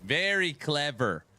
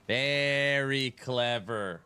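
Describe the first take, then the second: First: Said in the usual way. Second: Slow, sarcastic very clever; slow, sardonic very clever; drawn-out sarcasm. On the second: Real, not acted. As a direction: stretch it out, dry and mocking.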